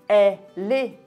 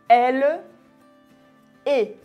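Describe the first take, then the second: First: The final l runs into the next word. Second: The two words are said separately. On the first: The speaker calls it right. "on dit elle est" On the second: The speaker calls it wrong. "on ne dit pas elle est"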